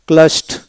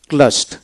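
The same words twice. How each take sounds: The two takes are said the same way.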